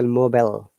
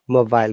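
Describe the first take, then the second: First: It is said with an American accent, short i. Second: It is said with a British accent. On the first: "They will say mobile. I becomes short sound" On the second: "This is British English"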